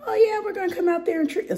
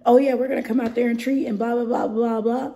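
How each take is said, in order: First: High, rushed, strained pitch to customers that breaks up; voice giving out. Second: Loud, high, rushed spiel; mock customer pitch. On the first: Shown as a demonstration. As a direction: voice cracks into a high squeak. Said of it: "I just lost my voice again". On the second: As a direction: rattle off a customer pitch, louder and higher, into blah-blah. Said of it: "What am I supposed to tell them?".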